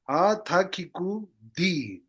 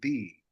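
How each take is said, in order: First: Every syllable of the phrase is said in full. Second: The phrase is reduced to one short syllable. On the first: "You have to read it like this" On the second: "becomes di"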